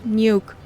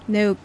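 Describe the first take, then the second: First: It sounds like the English word 'nuke'. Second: It does not sound like English 'nuke'. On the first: The speaker calls it wrong. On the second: The speaker calls it right.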